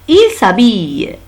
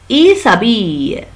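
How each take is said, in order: No difference in how they are said.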